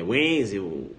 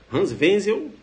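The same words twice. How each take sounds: First: "Wenzel" low, UEN-zel with English W; rival's wrong pronunciation. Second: "Wenzel" as VEN-zel, rising; your correct pronunciation. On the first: Teacher mocks the rival candidate, wrong pronunciation. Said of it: "teu concorrente falar". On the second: Teacher shows students the better version, correct pronunciation. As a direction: say "Wenzel" with a V, lifted at the end. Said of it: "Você fala". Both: Shown as a demonstration.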